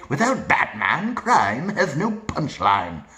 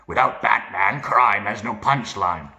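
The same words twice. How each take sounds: First: Gravelly villain with a lilting English accent. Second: Gravel voice without English accent; gravelly, read normally. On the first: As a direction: swoop slowly through it in an English accent. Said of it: "With the English accent". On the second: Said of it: "Read normally". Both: Shown as a demonstration.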